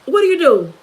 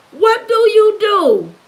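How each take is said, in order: First: Said in the usual way. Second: "What do you do" slow and higher, each word stretched; "What do you do" drawn out, pitched up insistently; emphatic repeat. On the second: Real, not acted. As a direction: press every word of "What do you do", slowly.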